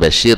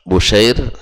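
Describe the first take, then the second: First: The first vowel is 'a', as Bashir. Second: The first vowel is 'u', as Bushair. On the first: The speaker calls it wrong. "bukan Bashir" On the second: The speaker calls it right. "tapi adalah Bushair"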